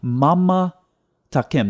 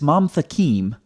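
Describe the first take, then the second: First: A full vowel is heard after the second m. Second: No vowel is heard after the second m. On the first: The speaker calls it wrong. "He's saying" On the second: The speaker calls it right. "that's what the word is"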